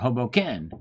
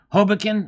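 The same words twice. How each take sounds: First: The stress is on the third syllable. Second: The stress is on the first syllable. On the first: "or the ken" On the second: "on the ho"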